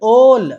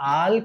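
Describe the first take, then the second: First: The vowel is a rounded oh sound. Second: The vowel is an open ah sound. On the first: The speaker calls it right. "ఓ పలకాలి" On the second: The speaker calls it wrong. "ఆల్ కాదండి"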